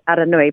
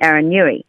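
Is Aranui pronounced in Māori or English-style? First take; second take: Māori; English-style. First: The name has Māori vowels and sounds. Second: The name has anglicized English vowels and sounds. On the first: The speaker's own way of saying the name. The speaker calls it right. "when you said Aranui" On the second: Other people corrected it to an anglicized form. The speaker calls it wrong. "people would say, oh, you mean Aranui"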